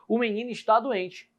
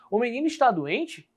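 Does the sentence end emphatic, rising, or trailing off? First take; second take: emphatic; rising. First: It is said as a forceful exclamation. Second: It is said as a question, rising. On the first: The speaker is exclaiming that the boy is sick. "agora pode ser uma exclamação" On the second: The speaker is asking whether the boy is sick. "Olha como a entonação muda dentro do meu texto"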